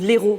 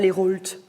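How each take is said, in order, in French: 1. Les consonnes finales sont muettes. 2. Les consonnes finales sont prononcées. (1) "tu as plein de lettres qu'on ne prononce pas" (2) "pourquoi on ne dit pas les Rolt?"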